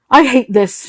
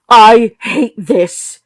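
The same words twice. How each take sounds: First: Announcing. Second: Loud, very slow outburst; mother bursting out to the room, loud and slow; sudden outburst. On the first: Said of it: "she announced to the room". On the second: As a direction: let it burst out slowly and loud. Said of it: "startled by the sudden outburst". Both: Acted.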